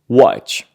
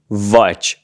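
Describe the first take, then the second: First: The word begins with a W sound. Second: The word begins with a V sound. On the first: The speaker calls it right. "we say watch" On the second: The speaker calls it wrong. "We don't say watch"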